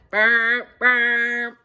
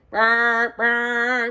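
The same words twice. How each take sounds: First: Low, loud horn noise; imitating a horn for the kids; horn sound. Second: Imitating a horn for the kids; horn sound. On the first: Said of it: "Can you guys do that?". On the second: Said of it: "Blow your horn". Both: Shown as a demonstration. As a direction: blow it like a horn.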